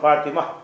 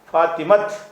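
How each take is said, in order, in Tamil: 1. இந்தச் சொல் திறந்த உயிரெழுத்தில் முடிகிறது. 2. இந்தச் சொல் இறுதியில் t ஒலியுடன் முடிகிறது. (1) "ஃபாத்திமா அப்படி நிப்பாட்டுறதுனால" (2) "ஃபாத்திமத் அப்படி நிப்பாட்டணும்"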